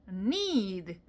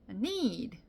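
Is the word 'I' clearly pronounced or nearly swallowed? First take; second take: swallowed; swallowed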